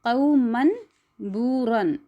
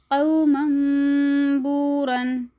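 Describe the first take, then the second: First: कौमन बूरन with a clear न, no nasal म; wrong way. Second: कौमन बूरन as क़ौमम्बूरन with nasal म, slow; right way. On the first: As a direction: say कौमन बूरन plainly, न kept. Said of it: "ऐसे नहीं पढ़ेंगे". (ग़लत अदायगी) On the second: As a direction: recite कौमन बूरन slowly, न turned to hummed म. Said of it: "कैसे पढ़ेंगे". (सही तजवीद अदायगी) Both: Shown as a demonstration.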